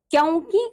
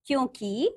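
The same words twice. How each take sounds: First: "क्योंकि" with an au vowel, "kyaunki"; wrong pronunciation. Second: Said in the usual way. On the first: Shown as a demonstration. Teacher showing pupils the error, "क्योंकि" mispronounced as "kyaunki". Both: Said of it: "का".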